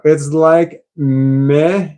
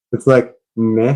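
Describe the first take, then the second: First: It's like meh stretched out slowly; slow, deflated meh; slow drawn meh. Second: Said in the usual way. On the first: Shown as a demonstration. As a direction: drag out the meh, unimpressed. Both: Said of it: "Oh, here we go".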